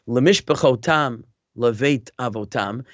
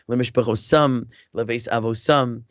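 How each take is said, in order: First: The marked consonants are pronounced as T sounds. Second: The marked consonants are pronounced as S sounds. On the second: "with a pronounce it with an S sound instead of a T"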